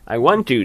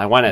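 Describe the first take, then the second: First: The words are separated with a small break. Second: The words run together without any break. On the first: "そこに一個なんか区切りがあるんですけど" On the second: "そのまま"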